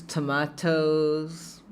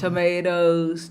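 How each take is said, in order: First: Very slow, softer TOMATOES, "to-MAH-tohs"; pronúncia britânica. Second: Slow TOMATOES, "to-MAY-dohs"; pronúncia americana. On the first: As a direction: open "ah" and crisp t in British "tomatoes". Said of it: "inglês britânico". (tomatoes bem devagar, com "a" aberto, à britânica) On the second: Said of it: "inglês americano". (tomatoes devagar, com "ei", à americana) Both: Shown as a demonstration.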